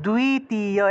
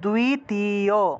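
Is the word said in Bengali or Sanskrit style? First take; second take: Sanskrit; Sanskrit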